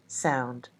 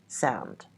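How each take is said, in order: The two takes are said the same way.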